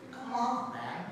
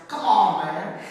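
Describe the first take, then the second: First: Said in the usual way. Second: Louder Southern-style exclamation; Southern accent. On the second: Retold or imitated. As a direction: punch it out like a Southerner. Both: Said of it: "Or what the Southerners".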